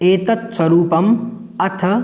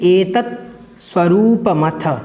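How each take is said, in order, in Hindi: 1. आखिरी दो शब्दों के बीच विराम है। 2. आखिरी दो शब्द बिना विराम के एक साथ जुड़ जाते हैं।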